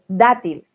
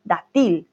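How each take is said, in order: First: Dátil with a loud, overstressed first syllable, DA-til; exaggerated correct stress. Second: Dátil with the last syllable overstressed, da-TIL; exaggerated wrong stress. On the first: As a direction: punch the DA in dátil, loudly. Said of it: "da kommt die Akzent". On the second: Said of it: "muss nur übertreiben und sagen". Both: Shown as a demonstration.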